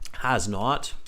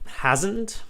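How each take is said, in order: First: The two words are said separately in full. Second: The two words are contracted into one word.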